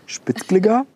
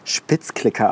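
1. Das Wort wird im Mainzer Dialekt gesagt. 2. Das Wort wird im Standarddeutsch gesagt. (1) "sondern Spitzklicker" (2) "Vielleicht spricht man es auch nicht Spitzklicker aus"

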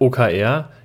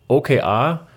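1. Die Buchstaben werden mit deutschen Buchstabennamen ausgesprochen. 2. Die Buchstaben werden mit englischen Buchstabennamen ausgesprochen.

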